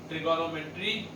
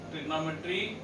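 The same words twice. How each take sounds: The two takes are said the same way.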